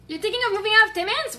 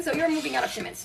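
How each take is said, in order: First: "Timmins" lifted as a question, quick and higher. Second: "Timmins" falling, settled as a statement; statement of fact. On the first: Friend asking about moving out of "Timmins", questioning rise. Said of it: "You're not thinking about it. You're doing it". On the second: Restating to friend that she is moving out of "Timmins", falling statement. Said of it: "You're doing it". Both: Acted.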